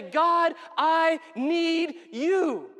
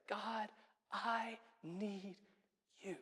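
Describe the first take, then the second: First: Loud, high, drawn-out cry to God; raised voice pleading with full force; impassioned plea. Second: Very soft, intimate plea; quiet, reverent confession of need; hushed prayer. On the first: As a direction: call out slowly, word by word. Preacher acts out desperate prayer. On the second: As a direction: breathe it slowly, with pauses between words. Same prayer repeated as simple phrase. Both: Acted.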